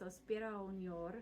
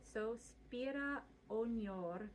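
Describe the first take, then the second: First: The phrase is said quickly, vowels run together. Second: The phrase is said at a slower pace.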